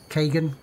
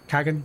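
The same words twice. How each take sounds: First: "Kagan" with a long A, as KAY-gun; pronunciation check. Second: "Kagan" with a short A, as KAG-un; pronunciation check. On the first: Streamer trying out how a character's name sounds, "Kagan" as KAY-gun. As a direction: say "Kagan" with first vowel as in "day". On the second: Streamer trying out how a character's name sounds, "Kagan" as KAG-un. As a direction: say "Kagan" with first vowel as in "cat". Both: Shown as a demonstration.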